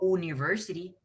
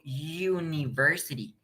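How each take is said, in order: First: The word begins with a plain vowel sound. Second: The word begins with a consonant y sound. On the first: The speaker calls it wrong. "¿Por qué no digo university?" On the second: The speaker calls it right. "Digo university"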